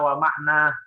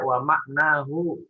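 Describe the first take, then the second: First: The word ends with its ending cut off. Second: The word ends with its full ending. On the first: The speaker calls it wrong. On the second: The speaker calls it right.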